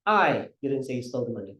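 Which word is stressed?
I. The word I carries the stress. "simulan natin sa I"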